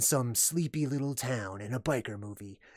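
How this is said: It is read in a dramatic movie-trailer voice.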